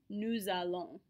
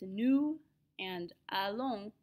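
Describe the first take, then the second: First: The words are joined with a z sound. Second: The words are separate with no z link. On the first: "when we put them next to each other" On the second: "It's nous and allons"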